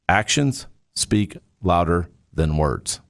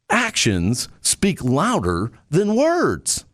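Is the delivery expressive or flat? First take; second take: flat; expressive. First: It is said plainly, without varied tone. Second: It is said with lively, varied tone. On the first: "So that's just the words" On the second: "There's adding tonality"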